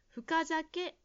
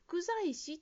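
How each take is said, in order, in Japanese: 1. 単語は『zake』の音で終わります。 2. 単語は『zaishi』の音で終わります。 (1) "深酒が正しい発音です" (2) "ジムさんは福在師と言っているように聞こえました"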